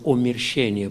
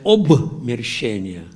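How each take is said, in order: First: The word is said without a b sound. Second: The word is said with a b sound. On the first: The speaker calls it wrong. "я говорю «омерщение»" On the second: The speaker calls it right. "правильно писать «обмерщение»"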